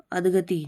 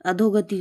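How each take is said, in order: First: अधगति without the 'o'; mispronounced अधगति. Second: Said in the usual way. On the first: Shown as a demonstration. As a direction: say अधगति as adh-ga-ti. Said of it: "अधगति नहीं". (अधगति, 'धो' की जगह 'ध') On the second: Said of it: "अधोगति होता है".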